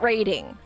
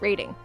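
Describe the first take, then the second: First: The T sound in the middle is clearly pronounced. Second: The T sound in the middle is dropped. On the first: The speaker calls it wrong. "Not rating" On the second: The speaker calls it right. "I don't say my T's"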